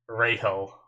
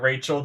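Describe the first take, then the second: First: The name is said with a foreign pronunciation. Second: The name is said with an English pronunciation. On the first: "they pronounce it like Rahel" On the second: "I'm just gonna call her Rachel just because it's gonna make my life a little bit easier"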